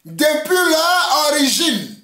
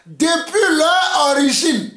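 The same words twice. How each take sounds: The two takes are said the same way.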